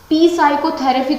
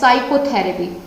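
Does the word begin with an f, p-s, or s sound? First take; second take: p-s; s. First: The word begins with a p before the s. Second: The word begins with a plain s sound. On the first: The speaker calls it wrong. "पी साइकोथेरेपी तो नहीं बोला" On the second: The speaker calls it right. "यहाँ पर पी छोड़ दिया"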